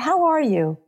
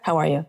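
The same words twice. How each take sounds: First: It is said slowly and attentively. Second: It is said quickly and hurriedly.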